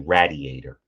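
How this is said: The first vowel is a short A sound. "long A's become short"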